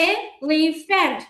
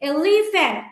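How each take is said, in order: First: elephant slowly as এ, লি, ফ্যান্ট; one separate beat per syllable of elephant; clapped-out syllables. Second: Said in the usual way. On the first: Shown as a demonstration. Teacher clapping three times for elephant, elephant slowly split apart. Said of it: "তিনবার আমরা clap দিলাম". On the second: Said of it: "same ভাবে আমরা এখানেও".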